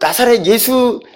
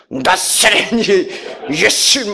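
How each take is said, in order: First: The name is pronounced plainly and normally. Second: The name is pronounced in an exaggerated, dramatic way. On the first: "발음도 이렇게 안 하시죠" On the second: "이렇게 하셔요"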